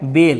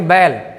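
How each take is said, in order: First: The vowel is mid, like in 'bed'. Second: The vowel is open, like in 'cat'. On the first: The speaker calls it right. "ये क्या है बेल" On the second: The speaker calls it wrong. "लेकिन बैल नहीं"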